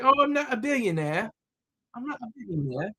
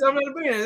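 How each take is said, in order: First: A quick, lightly done British impression of the author; imitating British accent. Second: Said in the usual way. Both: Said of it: "I'm gonna stop with her accent".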